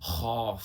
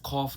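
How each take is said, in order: First: It begins with a throaty fricative and ends with f. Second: It begins with an aspirated k and ends with f. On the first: The speaker calls it right. "खा नुक्ता है खौफ" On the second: The speaker calls it wrong. "खौफ नहीं"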